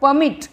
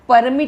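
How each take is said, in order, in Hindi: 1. ज़ोर दूसरे शब्दांश पर है। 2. ज़ोर पहले शब्दांश पर है। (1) "मिट पे ज़्यादा स्ट्रेस आ रहा" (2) "नहीं होता"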